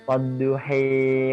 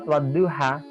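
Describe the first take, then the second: First: The final vowel is tilted fully toward e. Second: The final vowel is an open a sound.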